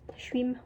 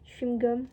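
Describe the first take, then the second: First: The word is clipped into one short form. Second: The word is said in full, both parts.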